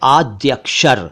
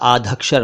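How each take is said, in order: First: The middle consonant is a 'dy' cluster. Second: The middle consonant is an aspirated 'dh' sound. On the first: The speaker calls it right. "यह है आद्यक्षर" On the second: The speaker calls it wrong. "ना बोलें"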